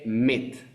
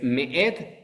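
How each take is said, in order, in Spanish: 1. La palabra tiene una sola sílaba, sin pausa. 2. La palabra tiene dos sílabas con una pausa entre ellas. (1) "mucha gente dice Met" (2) "el Aleph también se pronuncia"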